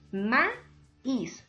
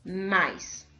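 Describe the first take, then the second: First: The i carries the stress, splitting the vowels. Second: The i is unstressed, vowels joined together. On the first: The speaker calls it right. "Y así leemos maíz" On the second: The speaker calls it wrong. "Si no tuviera esa fuerza de voz ahí"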